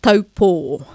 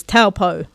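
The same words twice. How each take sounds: First: "Taupo" as toh-paw, each vowel pure; careful te reo demo; correct Māori pronunciation. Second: "Taupo" anglicised as TAL-poh; anglicised mispronunciation; common mispronunciation. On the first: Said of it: "that is often mispronounced". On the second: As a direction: say "Taupo" the wrong English way. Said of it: "often mispronounced as Taupo". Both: Shown as a demonstration.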